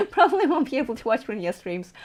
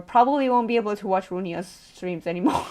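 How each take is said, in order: First: Amused, through a laugh; laughing repeat. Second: Said in the usual way. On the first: Real, not acted. Streamer tells viewers about losing streams, laughing. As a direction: let a real laugh run into the words.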